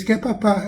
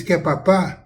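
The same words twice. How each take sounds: First: QUER PAPÁ higher, falling at the end; answering intonation. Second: QUER PAPÁ with a rising end; question intonation. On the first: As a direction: answer yes with a high, dropping QUER PAPÁ. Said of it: "Ela tá dizendo". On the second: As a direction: ask QUER PAPÁ, lifting the last syllable. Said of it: "da entonação. Quando o pai diz". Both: Retold or imitated.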